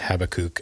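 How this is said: The name is said in a Hebrew-style pronunciation. This is the original-language form of the name. "It actually is Habakkuk, I think, in Hebrew"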